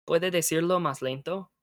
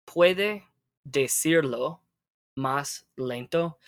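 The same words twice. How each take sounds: First: Said in the usual way. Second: Slow, with a pause after "Puede" and "decirlo"; broken-down model phrase. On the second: Shown as a demonstration. Teacher models a request for learner, broken down slowly. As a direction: give "Puede decirlo más lento" word by word, slowly.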